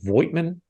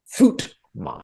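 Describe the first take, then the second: First: The name begins with a voiced V sound. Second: The name begins with a sharp F sound. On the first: The speaker calls it wrong. "you, I believe, pronounced it Voigtman. No, no, no" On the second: The speaker calls it right. "The V is sharp like an F, and the I is silent. Something like Footman"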